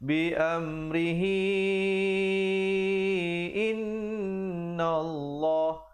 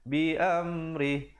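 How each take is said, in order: First: The final hi is voiced and runs on. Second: The word ends on a bare h, stopped. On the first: The reader continues without stopping. "kalau sahabat-sahabat nak sambung" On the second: The reader pauses here. "Kalau nak uh, berhenti, jadi ha itu diberikan tanda mati"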